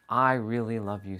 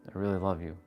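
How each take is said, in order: First: It is said with warm, lively energy. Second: It is said flatly with no energy. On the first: The speaker truly feels the words. The speaker calls it right. "when you feel your words" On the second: The words carry no real feeling. The speaker calls it wrong. "I didn't put any energy in the second one"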